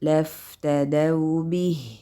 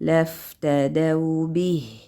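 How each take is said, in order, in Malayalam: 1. മൂന്ന് അക്ഷരങ്ങളും ഒരേ നീളത്തിലാണ്. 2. മൂന്ന് അക്ഷരങ്ങളും ഒരേ നീളത്തിലാണ്.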